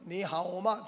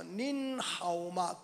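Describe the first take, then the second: First: Said in the usual way. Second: 닌하오마 drawn out slowly with a held n on 닌; polite Chinese greeting. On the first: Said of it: "니하오마라고 하는 말은 평오예요". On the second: Shown as a demonstration. Preacher teaching the greeting for elders, 닌하오마 slow with long 닌. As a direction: stretch 닌 into "niiin", then 하오마 slowly. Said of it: "어른들 할 때는".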